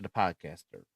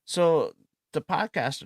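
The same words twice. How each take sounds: First: Said in the usual way. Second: Announcer lift. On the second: Shown as a demonstration.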